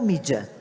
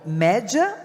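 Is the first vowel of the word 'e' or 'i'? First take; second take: i; e. First: The first vowel sounds like 'i' (í). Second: The first vowel sounds like 'e' (é). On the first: The speaker calls it right. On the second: The speaker calls it wrong. "A gente nunca sabe se é Cantar Ibope Média ou Mídia"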